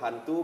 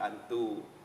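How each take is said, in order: First: The word starts with an audible h sound. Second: The word starts directly with a vowel sound. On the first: This is the Indonesian form. "hantu menjadi antu" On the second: This is the Dayak Jangkang form. "huruf H itu akan hilang"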